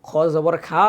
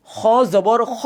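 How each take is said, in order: First: "খ জবর খা" with an open a vowel ending, "kha". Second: "খ জবর খ" with a rounded o vowel ending, "kho". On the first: Teacher showing the mistaken spelling, "খা" said as kha. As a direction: end "খ জবর খা" on kha instead of kho. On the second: Teacher modelling the letter for learners, "খ" said as kho. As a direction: draw out "খ জবর খ", ending on kho, not kha. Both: Shown as a demonstration. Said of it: "খ জবর যদি খা বলি".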